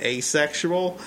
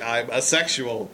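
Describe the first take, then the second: First: "asexual" opened with a long A, like "ay"; long-A pronunciation. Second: Said in the usual way. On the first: Shown as a demonstration. Cohost explaining how they always pronounced it, long-A "asexual". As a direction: say "asexual" as ay-sexual. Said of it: "I'd always pronounced it". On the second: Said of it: "So when Savern's like".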